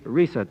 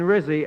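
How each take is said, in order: First: The first vowel sounds like 'ee'. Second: The first vowel sounds like 'ih'. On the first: The speaker calls it right. "I mean Risa" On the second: The speaker calls it wrong. "excuse me, I mean Risa"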